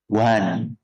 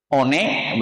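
First: Said in the usual way. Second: "One" read as written, o-ne, in two syllables; spelling pronunciation. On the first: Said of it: "bacanya apa?". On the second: Shown as a demonstration. Teacher quizzing class on English spelling, spelling pronunciation. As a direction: say "One" letter by letter as o-neh. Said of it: "dibacanya tidak sesuai dengan tulisannya".

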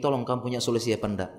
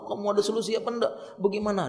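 First: Composed, quick request for advice; acted steady, matter-of-fact appeal. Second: High, quick, agitated plea; mock stressed-out whine; acted stress. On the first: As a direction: ask a brother calmly for help. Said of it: "menghadap dengan manusia sudah tegar". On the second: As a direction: beg someone for a fix in pretend distress. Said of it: "Dia tampakkan wajah stres".

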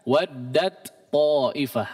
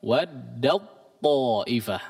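First: "waddat ta'ifah" read with the t kept clear, not merged; wrong reading, shown as wrong. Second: "Waddat ta'ifah" with the t merged fully into the heavy ta; correct merged reading. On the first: Teacher showing how it is not read. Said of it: "Tidak dibaca". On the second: Teacher giving the correct recitation. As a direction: demo of the right way, t merged into ta. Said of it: "Tapi apa?". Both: Shown as a demonstration.

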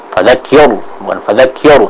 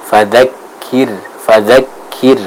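First: Fadzakir with a heavy final R; thick-R fadzakir; wrongly thickened ra. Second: Slow fadzakir with light final R; thin ra. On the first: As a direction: show the mistake, fadzakir ending dark like "kior". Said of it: "jangan sampai kita menebalkan". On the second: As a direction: separate the syllables, fadzakir ending in a clear, thin "kir". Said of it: "akan dibaca dengan tipis". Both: Shown as a demonstration.

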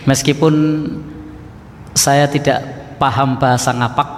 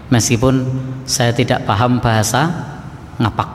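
No difference in how they are said.

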